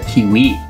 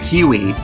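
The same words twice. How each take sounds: First: The word is said with a French accent. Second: The word is said with an English accent. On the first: The speaker calls it right. "Just make sure you put on your accent" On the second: The speaker calls it wrong. "this isn't a kiwi"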